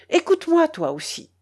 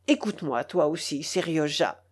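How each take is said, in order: First: Urgent appeal. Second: Quiet aside. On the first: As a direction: press him to listen. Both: A narrator's reading. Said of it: "ajouta-t-il en se tournant vers moi".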